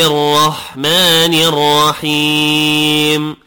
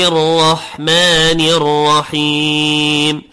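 Both takes have the same delivery.

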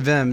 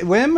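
First: The name begins with a V sound. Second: The name begins with a W sound.

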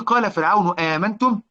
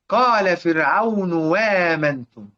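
First: The last word begins with a glottal stop. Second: The last word begins with a w sound.

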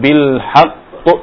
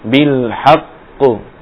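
First: The final qalqalah sound is cut off abruptly. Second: The final qalqalah sound is left ringing. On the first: The speaker calls it wrong. "Bukan bil haqq" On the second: The speaker calls it right. "tidak dimatikan dua-duanya"

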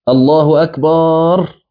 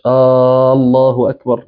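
First: The final vowel of akbar is stretched long. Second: The final vowel of akbar is short. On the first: The word turns into the plural of drum. The speaker calls it wrong. "يمد كده" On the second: It declares that God is greatest. The speaker calls it right. "لا، الله أكبر"

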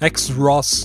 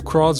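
First: The word begins with the spelled letter X. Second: The word begins with a plain k sound. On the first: The speaker calls it wrong. "Você não fala X-Ross" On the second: The speaker calls it right. "Eu acho que é cross mesmo"

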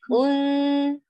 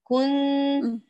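First: The nasal sound resonates through the nose. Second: The nasal sound resonates through the nose.

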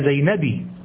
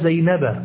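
First: The name ends in a short i vowel. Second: The name ends in a short a vowel. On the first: The speaker calls it wrong. "ولا زينبي" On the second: The speaker calls it right. "ذهبت إلى زينب"

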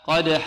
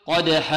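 The two takes are said the same way.

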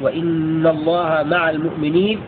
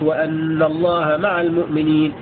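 First: The hamza is pronounced with an i vowel. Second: The hamza is pronounced with an a vowel. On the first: It starts a new independent statement. "بالكسر" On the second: It gives the reason for what precedes. "بفتح الهمزة"

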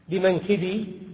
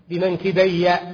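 First: The final y sound is single and short. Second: The final y sound is doubled and held. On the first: It refers to one shoulder. "بكسر الكاف والباء وتخفيف الياء" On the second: It refers to both shoulders. "لا بد أن تكون الياء مشددة"

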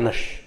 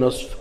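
First: The word is said with a sh sound. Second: The word is said with a clear s sound. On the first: "يبي يطلع نش" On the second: "قل نصف أو نص"

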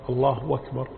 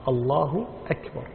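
First: Akbar starts with a w sound, linked smoothly. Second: Akbar starts with a clear glottal stop. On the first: The speaker calls it wrong. "أنهم يقول الله أكبر بالواو" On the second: The speaker calls it right. "يحقق الهمزة"

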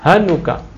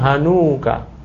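First: The vowel after the n is short. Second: The vowel after the n is long. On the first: The speaker calls it right. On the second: The speaker calls it wrong.

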